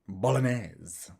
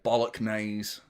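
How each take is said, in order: First: The middle is said without a hard g sound. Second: The middle sounds like 'bollock' with a hard g. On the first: The speaker calls it right. "You don't pronounce the G" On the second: The speaker calls it wrong. "I always say bollock"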